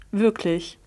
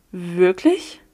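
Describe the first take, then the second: First: Said in the usual way. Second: Rising, disbelieving; astonished rising Wirklich?; stunned question. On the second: A narrator's reading. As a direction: barely get the word out. Stunned disbelief after revelation.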